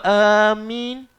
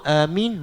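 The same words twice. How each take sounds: First: The m sound is held and doubled. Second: The m sound is short and single. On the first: It means 'those heading toward'. The speaker calls it wrong. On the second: It means 'grant it'. The speaker calls it right.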